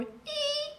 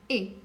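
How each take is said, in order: First: "E" held long on a tense ee sound; exaggerated long E. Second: "E" short, closer to an eh; short vowel E. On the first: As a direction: stretch "E" out, exaggerating its length. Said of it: "Again, exaggerating". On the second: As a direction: say "E" as a brief, relaxed vowel. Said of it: "not just whether it's short or long". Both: Shown as a demonstration.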